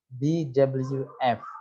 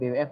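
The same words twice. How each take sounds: First: The W is named the English way. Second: The W is named the Indonesian way. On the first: The speaker calls it right. "W itu dibaca dalam uh, bahasa Inggris" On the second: The speaker calls it wrong. "bukan B W F"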